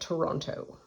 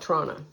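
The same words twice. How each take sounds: First: It is said fully with all three syllables. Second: It is squeezed into two syllables, like 'Trana'. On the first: The speaker is from elsewhere. "If you're not from here, you call it Toronto" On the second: The speaker is from the city. "if you're from here, you call it Toronto, T R A N N A"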